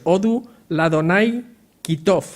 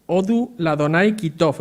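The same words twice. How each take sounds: First: Chanted, "Odu Ladonai Kitov" slow and drawn out, as the priests called it; chanted, sound out "Odu Ladonai Kitov" deliberately; Hebrew chant. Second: "Odu Ladonai Kitov" repeated slowly, a mild mock shout; Hebrew call. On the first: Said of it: "como lo decían ellos". (chanted, "Odu Ladonai Kitov" lento, como gritaban los sacerdotes) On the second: ("Odu Ladonai Kitov" repetido, grito suave) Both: Shown as a demonstration.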